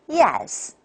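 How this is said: The pitch falls from a high start.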